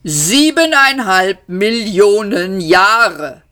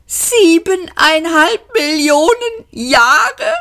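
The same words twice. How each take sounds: First: Slow, even computer voice stating „Siebeneinhalb Millionen Jahre“ with a falling end; calm statement. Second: High, slow, disbelieving cry of „Siebeneinhalb Millionen Jahre?“ rising at the end; shocked shout. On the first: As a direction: announce it slowly as plain fact. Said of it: "sagte Deep Thought". (ruhige, langsame Feststellung) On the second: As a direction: yell it in outraged disbelief. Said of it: "schrien sie im Chor". (hoher, fassungsloser Schrei) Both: A narrator's reading.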